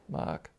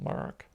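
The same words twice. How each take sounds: First: The name is said without an American accent. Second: The name is said with an American accent.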